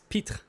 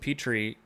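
First: The name is given a French pronunciation. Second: The name is given an English pronunciation. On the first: "the E is actually silent" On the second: "I guess that's just how we're going to say his last name"

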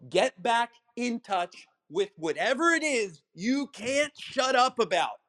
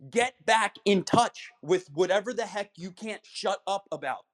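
First: It is said slowly. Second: It is said at normal speed.

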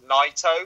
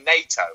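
First: The name's first syllable sounds like 'nigh'. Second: The name sounds like the word NATO. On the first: The speaker calls it right. "apparently it's Naito" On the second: The speaker calls it wrong. "because I say NATO"

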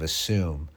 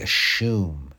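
First: The middle sound is a plain s. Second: The middle sound is sh, as in ashoom. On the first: The speaker calls it right. "instead of Assume" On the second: The speaker calls it wrong. "They say Ashoom"

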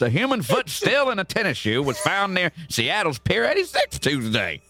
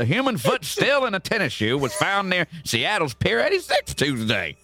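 First: It is read in a Southern American accent. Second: It is read in a Southern American accent.

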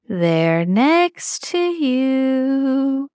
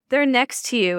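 First: It is said in a creepy, put-on voice. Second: It is said in a plain, normal voice.

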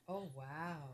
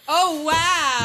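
First: It is said quietly. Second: It is said loudly.

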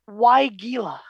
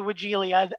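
First: No extra vowel comes between the L and A. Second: An extra vowel comes between the L and A. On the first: "if you look it up in the pronunciation guides for horticulture" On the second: "I say Wigilia. Add that extra vowel in there between the L and the A"

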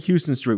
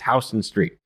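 First: It is said the way tourists say it. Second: It is said the way locals say it. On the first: The speaker is a visitor to the city. The speaker calls it wrong. "don't say Houston Street. We know you're tourists" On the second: The speaker knows the city. The speaker calls it right. "it's Houston Street"

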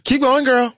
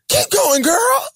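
First: The voice sounds sarcastic and impatient. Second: The voice sounds warm and encouraging. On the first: The speaker wants the person to stop. "when somebody is doing the absolute most and you just are waiting for them to pipe the fuck down" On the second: The speaker is cheering the person on. "It can also be said as a line of encouragement"

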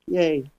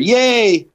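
First: It is said flat and subdued. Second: It is said with excited energy.

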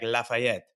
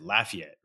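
First: It is said with a French pronunciation. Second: It is said with a local English pronunciation. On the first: This is how it would be said in French. The speaker calls it right. "in French, it'd be like Lafayette" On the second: This is how locals in Louisiana say it. The speaker calls it wrong. "they pronounce it Lafayette"

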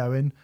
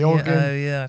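First: The name is said as the two-syllable 'Owen'. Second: The name is sounded out following its spelling. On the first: The speaker calls it right. "said my name's Owen" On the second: The speaker calls it wrong. "Steve is mispronouncing his name on purpose"

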